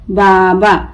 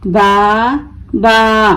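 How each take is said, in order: First: Said in the usual way. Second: बा, pause, बा, each held; broken into syllables. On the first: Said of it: "मिलाकर पढ़ें". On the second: Shown as a demonstration. Teacher breaking the word for learners, each बा held apart. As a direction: say बा twice as separate long pieces. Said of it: "तोड़ तोड़ कर पढ़ूंगी".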